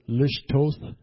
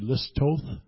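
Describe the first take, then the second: First: The middle sound is a 'sh' sound. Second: The middle sound is an 's' sound. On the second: The speaker is Samaritan. "Samaritans, it's believed, just pronounced it as an S"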